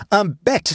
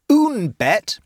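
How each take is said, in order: First: "Un bête" with masculine "Un", slow and high; wrong French article. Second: "Une bête" with feminine "Une", pitched high; corrected French article. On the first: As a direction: say "Un bête" slowly, using masculine "Un". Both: A narrator's reading. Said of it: "corrected Matilda".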